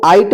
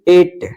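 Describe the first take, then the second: First: The vowel sounds like 'eye'. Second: The vowel sounds like 'ay'. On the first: The speaker calls it wrong. "इसको आइट मत पढ़िएगा" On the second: The speaker calls it right. "एट इसको पढ़ा जाएगा"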